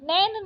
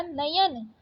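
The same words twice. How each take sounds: First: नैन as one syllable, "nain"; wrong syllables. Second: Said in the usual way. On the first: Shown as a demonstration. Teacher rejecting a spelling, नैन as one syllable. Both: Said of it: "नैन नहीं होता".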